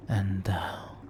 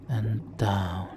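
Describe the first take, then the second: No difference in how they are said.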